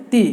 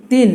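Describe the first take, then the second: First: "তি" as an open syllable ending on the i vowel; teacher's demo of "তি", ending on i; short-vowel demo. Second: "তিন" closed with an added n; teacher's demo of "তিন", i plus n; tanween demo. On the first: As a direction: say "তি" with no n at the end. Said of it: "জের উচ্চারণ হয় ইকারের". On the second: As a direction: end "তিন" on a clear n sound. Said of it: "এখানে একটা দন্তন বেড়ে গেল". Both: Shown as a demonstration.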